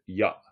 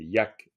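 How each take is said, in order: First: The final k sound is dropped. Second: The final k sound is clearly pronounced. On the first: "mais en fait, ya. On va souvent entendre ya" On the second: "c'est yak"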